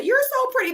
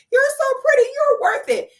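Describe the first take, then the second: First: High, gushing fake-sweet voice; mock gushing commenter. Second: High, louder gushing fake-sweet squeal; mock gushing commenter. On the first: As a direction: squeal it like a fawning fan in the comments. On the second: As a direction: gush over the top like a fawning fan. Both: Mocking fans' gushing comments.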